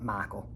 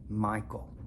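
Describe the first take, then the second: First: The I vowel is flattened, Middle Tennessee style. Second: The I vowel is a full standard glide. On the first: The speaker calls it wrong. "not Michael" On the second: The speaker calls it right. "It's Michael"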